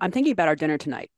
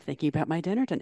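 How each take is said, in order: First: It is said in a plain, ordinary tone. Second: It is said in a suggestive, flirty tone.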